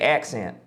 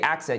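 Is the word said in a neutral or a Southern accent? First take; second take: Southern; neutral. First: It is said in a Southern American accent. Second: It is said in a plain, non-Southern accent. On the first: The speaker calls it right. "if you were doing a Southern accent, you would say accent" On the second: The speaker calls it wrong. "you wouldn't say accent"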